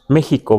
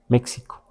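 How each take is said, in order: First: The x is a raspy h sound. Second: The x is a ks sound. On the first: This is how Mexicans usually say it. "Y pronunciamos México, ¿verdad? Con J" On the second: This follows the letter's usual value. "Si le diéramos un sonido de X, diríamos México"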